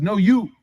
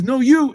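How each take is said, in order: First: Said in the usual way. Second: Pitched higher and pushier, insisting; insistent. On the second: Retold or imitated. Adi refusing the Prophet's cushion, insistent mock protest.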